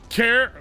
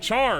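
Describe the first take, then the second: First: It starts with a k sound, rhyming with bear. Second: It starts with a ch sound, rhyming with far. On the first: The speaker calls it wrong. "Do you say care? No, you don't" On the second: The speaker calls it right. "You say char, because that's what it's spelled like"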